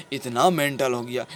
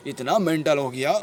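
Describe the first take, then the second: No difference in how they are said.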